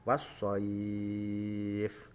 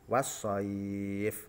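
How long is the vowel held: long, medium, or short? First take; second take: long; medium. First: The vowel before the final sound is held very long. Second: The vowel before the final sound is held moderately. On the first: "tiga alif atau enam harokat" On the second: "dua alif"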